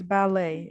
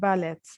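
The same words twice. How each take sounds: First: The final T sound is silent. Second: The final T sound is pronounced. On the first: The speaker calls it right. "we do not read the final T" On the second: The speaker calls it wrong. "not ballet"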